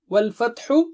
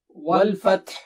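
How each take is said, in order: First: The word ends with its final short vowel. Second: The word ends on a bare consonant. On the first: The reading continues past this word. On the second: The reader stops on this word.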